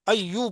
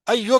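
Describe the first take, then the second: First: The word ends with a 'u' vowel. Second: The word ends with an 'o' vowel. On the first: The speaker calls it right. "अय्यू पढ़ो" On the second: The speaker calls it wrong. "अय्यो क्यों है ये तो गलत है"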